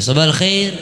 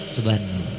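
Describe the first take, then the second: First: "Sabahal khair" lifted high; questioning high tone. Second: "sabah nur" low, soft and falling; low answering tone. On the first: Teacher repeats the greeting for students, high questioning intonation. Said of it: "Ya gitu ya". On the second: Teacher repeats the reply for students, low falling intonation. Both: Shown as a demonstration.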